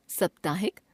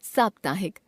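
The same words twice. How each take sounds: First: साप्ताहिक with a short first a, "saptahik" as "suptahik"; wrong pronunciation. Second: Said in the usual way. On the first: Shown as a demonstration. Teacher showing an a-vowel error, mispronounced with short first vowel in साप्ताहिक. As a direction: shorten the opening vowel of साप्ताहिक, rising at the end. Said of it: "अशुद्ध". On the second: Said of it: "शुद्ध".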